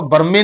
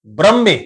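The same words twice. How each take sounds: First: ਬ੍ਰਹਮੇ said quickly as bərme with a full vowel; wrong pronunciation. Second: ਬ੍ਰਹਮੇ as brəmme with a tight br cluster and a doubled m; correct pronunciation. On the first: Teacher showing how not to read it. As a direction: rush ਬ੍ਰਹਮੇ as bər-me, the wrong way. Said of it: "ਇਹਨੂੰ ਆਪਾਂ ਬ੍ਰਹਮੇ ਨਹੀਂ ਪੜ੍ਹਨਾ". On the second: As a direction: say ਬ੍ਰਹਮੇ crisply, br joined. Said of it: "ਉਚਾਰਨ ਕਰਾਂਗੇ ਜੀ ਬ੍ਰਹਮੇ". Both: Shown as a demonstration.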